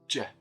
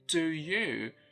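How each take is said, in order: First: The two words merge into one j syllable. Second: Two words are said with full vowels. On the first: "it becomes j, ... So one syllable for two words" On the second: "instead of saying do you"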